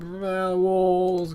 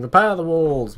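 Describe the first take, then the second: First: "Repair the walls" slurred slowly, words mushed together; garbled. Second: Said in the usual way. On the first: Shown as a demonstration. Gamer replays his garbled in-game voice command, slurred. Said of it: "I can't speak coherently". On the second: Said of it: "my attempt at saying".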